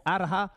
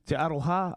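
First: "Araha" stumbled, with the middle vowel flattened to an a; a quick mispronounced "Araha" before the correction; slip on a place name. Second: "Te Aroha" said carefully as teh a-ROH-ha; corrected place name. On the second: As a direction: fix it to a clear "Te Aroha", stress on ROH. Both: Real, not acted. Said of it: "I should say, sorry about that".

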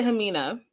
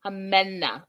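First: Hamina with a long ee in the middle, huh-MEE-nuh; mispronounced name. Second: Hamena with a short e in the middle, uh-MEH-nuh; corrected name. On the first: Host first names the reality star Hamina, huh-MEE-nuh. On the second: Host corrects herself after a viewer, Hamena as uh-MEH-nuh. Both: Shown as a demonstration. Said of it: "Lydia is saying it's Hamena".

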